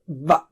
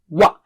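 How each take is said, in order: First: It begins with lip and teeth, a v sound. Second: It begins with rounded lips, a w sound. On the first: The speaker calls it wrong. "don't say it as V of English" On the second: The speaker calls it right. "So first circle and then wa"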